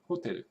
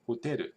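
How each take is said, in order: First: The first syllable is highest in pitch. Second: The second syllable is highest in pitch. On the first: The speaker calls it right. "matches the southern United States pronunciation" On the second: The speaker calls it wrong. "they don't say hoteru"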